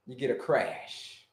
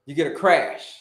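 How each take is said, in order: First: Slow, much lower, soft crash. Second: Said in the usual way. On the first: Shown as a demonstration. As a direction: drop the voice low and slow on crash. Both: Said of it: "Who can tell me".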